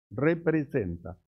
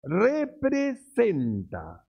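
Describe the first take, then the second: First: Said in the usual way. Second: "Representa" stretched very slowly and set apart; emphatic, drawn out. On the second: Shown as a demonstration. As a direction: lean hard on "Representa", drawing it out. ("Representa" muy lento y enfático) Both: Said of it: "escuche bien".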